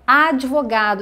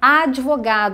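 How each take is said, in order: First: The d is followed directly by the v. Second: The d is followed directly by the v.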